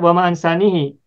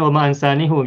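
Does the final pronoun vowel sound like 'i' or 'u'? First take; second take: i; u. First: The final pronoun ends with an 'i' vowel. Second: The final pronoun ends with a 'u' vowel. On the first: This is the form grammar would expect. "kalau secara bahasa bahasanya mestinya wama ansanihi" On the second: This is how one recitation tradition reads it. "menurut kiroat salah satu kiroat bacanya wama ansanihu"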